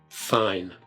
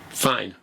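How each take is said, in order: First: It is said slowly and melancholically. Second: It is said fast and resolutely.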